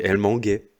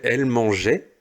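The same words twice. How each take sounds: First: Manguait said with a hard G, not a J sound; wrong form demo. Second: Said in the usual way. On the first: Shown as a demonstration. Teacher showing pupils the forgotten E, manguait with a hard G. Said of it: "ça fait elle manguait". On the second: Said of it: "il faut le E après le G".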